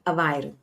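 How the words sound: It is said in the Lisbon way. This is how people from the capital say it. "Lisboans pronounce it"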